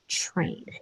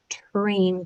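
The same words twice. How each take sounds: First: The word starts with a muddled ch sound. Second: The word starts with a clear t sound. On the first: The speaker calls it wrong. "and not train" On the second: The speaker calls it right. "say train clearly"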